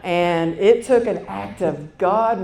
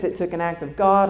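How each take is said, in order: First: Slow, loud, laughing emphasis; emphatic. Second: Said in the usual way. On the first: Real, not acted. Telling the audience how hard it was, slow and loud with a laugh. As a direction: lean into it with a laugh.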